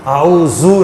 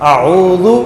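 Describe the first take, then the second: First: The middle consonant is a heavy emphatic z. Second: The middle consonant is a soft light dh. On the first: The speaker calls it wrong. "आऊज़ु नहीं, ज़ा नहीं पढ़ना" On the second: The speaker calls it right. "ज़ाल ज़ाल, आऊज़ु"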